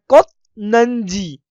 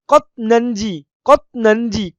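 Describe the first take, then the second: First: कोत्नंजी very slow, pressing on कोत्; pressed first syllable. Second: कोत्नंजी in two parts, stop after कोत्; demonstrated pronunciation. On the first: Teacher shows students where to press, pressed कोत् in कोत्नंजी. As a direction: press कोत्, hold the stop, then draw out नंजी. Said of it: "को थोड़ा सा दबाना है". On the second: Teacher models the word for students, demonstrated pronunciation of कोत्नंजी. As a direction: say कोत्नंजी as a clear model, kot then nanji. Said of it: "जैसे मैं बोल रहा हूँ". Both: Shown as a demonstration.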